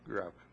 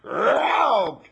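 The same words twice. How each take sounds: First: The growl is said quietly and weakly. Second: The growl is said loudly and fiercely.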